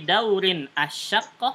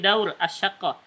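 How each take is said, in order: First: The n is kept but cut off from the next word. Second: The final n is dropped entirely. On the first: This is acceptable when reading or speaking Arabic. "bisa kita putuskan saja" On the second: This is acceptable in everyday speaking. "disukunkan semuanya"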